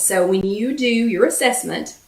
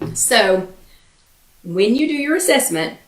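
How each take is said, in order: First: It is said at a normal speed. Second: It is said very slowly.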